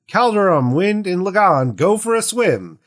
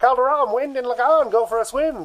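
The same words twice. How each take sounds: First: It is read in a plain, normal voice. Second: It is read in an old-timey announcer voice. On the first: The speaker calls it wrong. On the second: The speaker calls it right.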